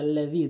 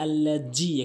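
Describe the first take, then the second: First: The middle consonant is a th sound. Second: The middle consonant is a z sound. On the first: The speaker calls it right. "বলতে হবে আল্লাযী" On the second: The speaker calls it wrong. "অনেকেই বলে আল্লাজি, এখানে ভুল করে"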